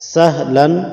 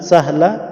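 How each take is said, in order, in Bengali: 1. শব্দটি একটি শেষ n ধ্বনি দিয়ে শেষ হয়। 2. শব্দটি একটি স্বরধ্বনি দিয়ে শেষ হয়, কোনো n নেই। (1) "যদি ওয়াকফ না করেন সাহলান বলবেন।" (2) "সাহলা কখন বলবেন? যদি ওয়াকফ করেন।"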